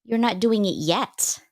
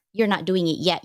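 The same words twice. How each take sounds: First: Slow, with "not" leaned on and rising; stress on not. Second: "You're" hit first, then falling at normal pace; stress on you're. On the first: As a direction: draw out "you're not doing it yet" and lean hard on "not". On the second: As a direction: open with a firm "You're" and let "you're not doing it yet" settle down. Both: Retold or imitated. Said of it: "I'm like".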